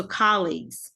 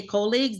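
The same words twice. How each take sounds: First: "colleagues" with an open "ah", KAH-leegz, slow; US pronunciation. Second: "colleagues" with a long "oh", KOH-leegz; Philippine pronunciation. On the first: Coach showing the US way, pronunciation demo. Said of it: "they don't know that here. So colleagues". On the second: Coach showing the Philippine way, pronunciation demo. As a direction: say "colleagues" starting like "coal". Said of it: "in the Philippines, we say colleagues". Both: Shown as a demonstration.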